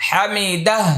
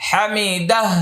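The two takes are said the same way.

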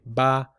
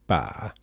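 First: The vowel is said in a plain, normal voice. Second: The vowel is said with a creaky voice. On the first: It means the number three. "if I just say ba, I'm talking about the number 3" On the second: It means at random. "if I use creaky voice, I can say ba"

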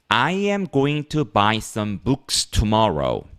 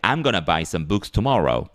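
First: Going to is said in full, unhurried. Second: Going to is reduced to gonna, said quickly.

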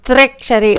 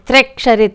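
The two takes are said the same way.

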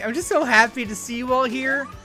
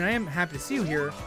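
First: It is said in an over-the-top gushing way. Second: It is said in a plain, sincere way.

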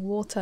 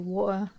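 First: The t in the middle is crisply pronounced. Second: The t in the middle is softened. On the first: It sounds posh. "I always think I sound really posh when I pronounce the tea" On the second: It is the everyday casual way of speaking. "I'm just saying it like very casually"

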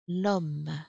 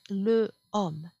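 First: The article's vowel is dropped before the noun. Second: The article's vowel is pronounced before the noun. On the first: The speaker calls it right. "by an apostrophe" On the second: The speaker calls it wrong. "it's easier than to say le homme"

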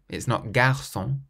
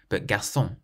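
First: The stress is on the first syllable. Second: The stress is on the last syllable. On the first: The speaker calls it wrong. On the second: The speaker calls it right. "You always stress the final syllable of every word"

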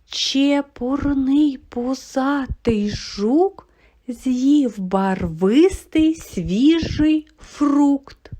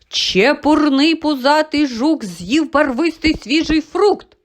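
First: It is said slowly and quietly. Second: It is said quickly and loudly. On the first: "ми її промовляли повільно і тихо" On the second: "Ось так швидко ми з вами її промовили"

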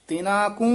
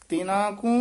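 Both takes have the same delivery.

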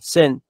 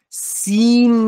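First: The vowel is short, between 'i' and 'e'. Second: The vowel is a long 'ee' sound. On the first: The speaker calls it right. "بین ای و ا" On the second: The speaker calls it wrong. "تلفظ درستش سین نیست"

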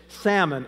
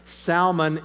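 First: It is pronounced as the fish. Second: It is pronounced as the biblical name. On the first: It refers to the fish. "Salmon is a fish" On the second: It refers to a person in the Bible. "Salmon is a name in the Bible"

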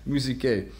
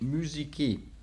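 First: It is said with an older, non-modern pronunciation. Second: It is said with a modern Greek pronunciation.

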